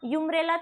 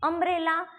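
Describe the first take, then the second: First: The word begins with a 'yoo' sound. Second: The word begins with a short 'uh' sound. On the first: The speaker calls it wrong. "यूम्ब्रेला तो नहीं बोलता ना कोई भी" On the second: The speaker calls it right. "हमें अम्ब्रेला बोलना है"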